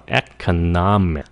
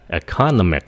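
First: Economic as ec-o-NOM-ic; stress on NOM. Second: Economic stressed like economy, e-CON-omic; wrong early stress. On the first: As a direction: put the weight on NOM in "economic". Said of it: "nó là economic". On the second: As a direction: put the weight on the second syllable of "economic". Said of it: "Đừng có là economic". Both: Shown as a demonstration.

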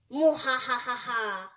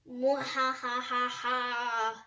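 First: Hammed-up evil cackle; mad scientist laugh. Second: Slow drawn-out evil cackle; villain laugh, stretched long; mad scientist laugh. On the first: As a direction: cackle like a cartoon villain. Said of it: "You really need to work on that". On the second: Acted. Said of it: "I think I do it better than her".

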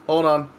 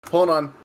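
Both takes have the same delivery.

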